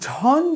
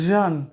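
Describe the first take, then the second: First: The syllable starts with an aspirated jh sound. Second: The syllable starts with a sound between j and jh. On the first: The speaker calls it wrong. "ঝন যদি বলি তবুও ভুল হয়ে যাচ্ছে" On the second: The speaker calls it right. "এই দুটোর মাঝামাঝি একটি শব্দ"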